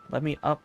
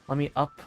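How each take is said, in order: Both takes have the same delivery.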